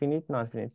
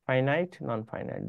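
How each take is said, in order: First: Finite is said with short 'ee' vowels. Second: Finite is said with long 'eye' vowels. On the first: The speaker calls it wrong. "অনেকে ফিনিট নন ফিনিট কি কি যেন বলে" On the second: The speaker calls it right. "উচ্চারণ হয় ফাইনাইট"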